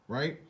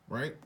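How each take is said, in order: The two takes are said the same way.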